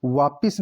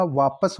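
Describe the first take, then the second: First: वापिस ending in "pis"; short i in the second syllable of वापिस; mispronounced वापस. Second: Said in the usual way. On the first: Shown as a demonstration. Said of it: "वापिस नहीं होता". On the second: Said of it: "वापस होता है".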